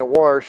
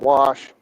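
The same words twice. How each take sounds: First: The word has an R sound before the sh. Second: The word has no R sound before the sh. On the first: It is the regional habit picked up from family. The speaker calls it wrong. "say wash with an R" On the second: It is the standard way to say it. The speaker calls it right. "a normal pronunciation"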